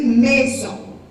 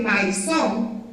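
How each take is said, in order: First: The first vowel sounds like 'eh'. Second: The first vowel sounds like 'eye'. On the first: The speaker calls it right. "van a decir maison. Porque me dicen la A y la I suena como E" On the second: The speaker calls it wrong. "No van a decir maison"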